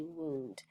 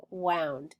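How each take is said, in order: First: "wound" said as woond; oo vowel. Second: "wound" rhyming with sound; ow vowel. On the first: Teacher showing the other reading, "wound" with an oo sound. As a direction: say "wound" with a long OO. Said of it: "it can have an oo sound too". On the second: Teacher reading the word for pupils, "wound" as waund. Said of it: "Read wound". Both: Shown as a demonstration.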